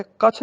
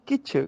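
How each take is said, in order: First: ਕਛ with short a; wrong vowel. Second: ਕਿਛ with short i; correct vowel. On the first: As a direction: say ਕਛ as kachh. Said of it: "ਕਛ ਨਹੀਂ". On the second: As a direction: say ਕਿਛ as kichh. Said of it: "ਕੱਕੇ ਨੂੰ ਸਿਹਾਰੀ". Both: Shown as a demonstration.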